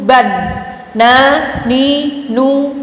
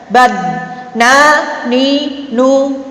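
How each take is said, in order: No difference in how they are said.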